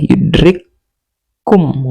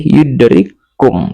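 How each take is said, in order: First: The two k sounds are split apart. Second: The two k sounds are merged into one. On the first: The speaker calls it wrong. "Enggak boleh yudrik kum" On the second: The speaker calls it right. "tapi yudrikum langsung aja"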